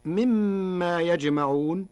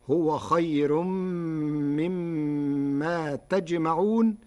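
First: Said in the usual way. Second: تجمعون with ta, slowly drawn out; slow Warsh recitation of تجمعون; Warsh reading. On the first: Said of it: "قرأ ورش كلمة يجمعون بتاء الخطاب". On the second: Shown as a demonstration. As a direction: read تجمعون with ta of address, slow. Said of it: "بتاء الخطاب".

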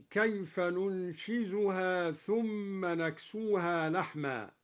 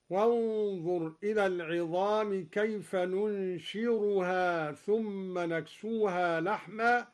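First: Said in the usual way. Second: ننشرها read "nunshiruha", r not z; ننشرها with r instead of z. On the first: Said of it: "قرأ الدوري بالراء بدل الزاي". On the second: Shown as a demonstration. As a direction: say ننشرها with a clear r in place of z. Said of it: "قرأ الدوري بالراء بدل الزاي هكذا". (ننشرها بالراء بدل الزاي)

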